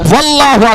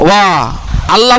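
First: The words run together as one word. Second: The words are said separately, with a break. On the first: The speaker calls it right. "তারপরে বলবেন ওয়াল্লাহু আকবার" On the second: The speaker calls it wrong. "ওয়া আল্লাহ বলবেন না"

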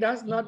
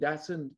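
First: It is said as two full separate words. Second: It is said as one short contracted word.

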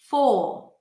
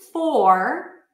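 First: The R at the end is not pronounced. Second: The R at the end is pronounced. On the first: This is the British pronunciation. "you'll hear full" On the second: This is the American pronunciation. "Instead of for"

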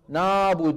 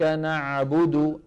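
First: The word is said without the throat 'ain' sound. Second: The word has a clear constricted throat 'ain' sound. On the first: The speaker calls it wrong. "وين العين؟ ما في عين" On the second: The speaker calls it right. "لابد من رجوع لسان المزمار وتضيق الحلق"

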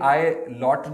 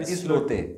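First: It is said like English 'eye lot'. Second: It is said as three syllables, 'is-lo-te'. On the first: The speaker calls it wrong. "मैंने कहा ये आई लॉट ना हो" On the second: The speaker calls it right. "Spanish word है और ये इस लोते ही बोला जाएगा"

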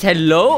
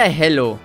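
First: The word ends with a w-like glide. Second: The word ends on a plain vowel.

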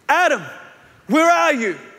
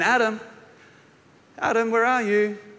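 First: It is cried out in a father's anguish. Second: It is called out playfully, like hide and seek.

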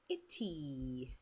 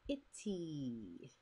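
Both takes have the same delivery.

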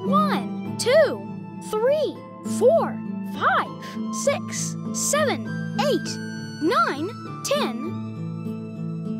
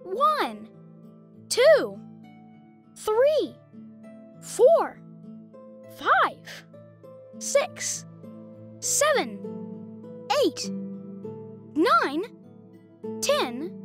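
First: The numbers are counted at a very fast pace. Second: The numbers are counted at a slow pace.

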